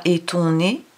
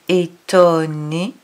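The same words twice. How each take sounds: First: "étonné" with a nasal "on", "é-ton-né" run together; wrong nasal. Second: "étonné" slow, open "o" and a clear N, "é-to-nné"; right reading. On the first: Teacher to child, showing the wrong "étonné". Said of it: "On dit pas étonné". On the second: Teacher to child, saying "étonné" correctly and slowly. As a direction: drag out "étonné" with the N sounding. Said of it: "on dit étonné". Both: Shown as a demonstration.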